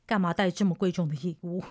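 It is said in a calm, even tone.

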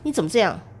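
It is said sharply, sounding angry.

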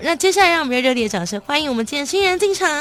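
It is lively, with high-pitched phrase endings.

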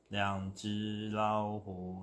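It is said in a flat, bored tone. The speaker does not care much. "那无聊大概就是这样的感觉"

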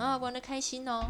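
It sounds sour, with a rising ending.

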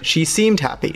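It sounds doubtful, with changed intonation.

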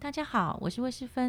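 It sounds like a bright, rising shop welcome.

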